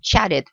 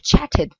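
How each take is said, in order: First: The middle consonant sounds like a d. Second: The middle consonant sounds like a t. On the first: "les deux T euh, au milieu d'un mot, surtout en américain, se prononceront D" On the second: "vous pouvez dire chatted. Il n'y a pas de problème"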